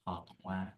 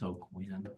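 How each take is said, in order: First: The name is said with a French sound. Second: The name is said with a plain English sound. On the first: "if you want to do the French, it comes out more like Aquin" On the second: "it's Oquin"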